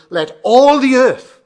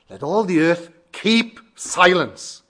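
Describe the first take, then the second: First: "all the earth" boomed slow, high and loud; stress on ALL THE EARTH. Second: "keep" and "silence" each punched loud, set apart by pauses; slow down and hit "keep", then "silence"; stress on KEEP SILENCE. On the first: Preacher demonstrating emphasis to congregation, "all the earth" loud and drawn out. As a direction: stretch "all the earth" out at full volume. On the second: Preacher demonstrating emphasis on different words, "keep silence" slow and stressed. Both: Shown as a demonstration. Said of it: "put an emphasis on different words".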